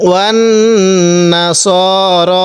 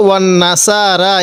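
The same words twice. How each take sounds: First: ওয়ান না স র with short, unstretched স and র; correct reading. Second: ওয়ান না সা রা read with the long vowels on সা and রা; the mistaken reading, stretching সা and রা into long vowels; wrong reading. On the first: Teacher showing students the right way, short correct reading. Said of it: "এরকমভাবে পড়ব।". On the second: Teacher showing students the common mistake, the wrong reading. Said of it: "অনেকে আমরা এখানে যে ভুলটি করি". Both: Shown as a demonstration.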